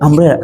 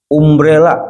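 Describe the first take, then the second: First: The first vowel is an open 'ah' sound. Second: The first vowel is a rounded 'oo' sound. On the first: It is read the English way. The speaker calls it right. "Bacanya umbrella. Kan ada U-nya gitu" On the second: It is read letter by letter as spelled. The speaker calls it wrong.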